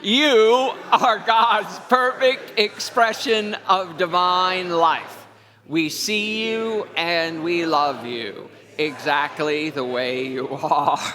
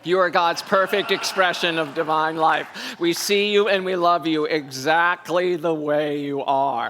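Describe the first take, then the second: First: It is said warmly, with strong feeling. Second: It is said plainly, without much feeling.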